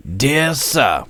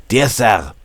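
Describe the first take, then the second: First: Said in the usual way. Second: Put-on louder German-accented salutation. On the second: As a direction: open the letter in a German accent. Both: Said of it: "I have to read this with a German accent".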